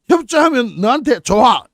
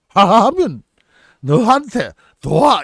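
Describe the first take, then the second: First: It is said with a native Korean accent. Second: It is said with a heavy foreign accent.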